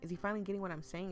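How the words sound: It is said with a questioning tune.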